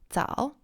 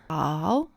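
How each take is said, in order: First: It is said very quickly. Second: It is said at a normal speed.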